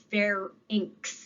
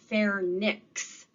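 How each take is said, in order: First: It is said without an extra n sound. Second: It is said with an extra n sound. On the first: The speaker calls it right. "The word is pharynx" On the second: The speaker calls it wrong. "not pharynx. You'd have to stick an extra N"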